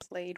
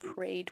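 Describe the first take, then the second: First: The word is said with an L sound. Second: The word is said with an R sound. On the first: "instead of saying played with an L" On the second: "she said prayed with an R"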